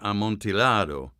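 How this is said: The word is pronounced with Italian sounds. "If you're talking about um, an Italian play, it would be"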